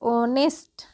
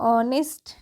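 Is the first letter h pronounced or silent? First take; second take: silent; silent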